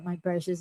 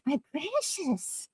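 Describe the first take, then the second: First: It is said in a plain, ordinary voice. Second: It is said in a put-on character voice.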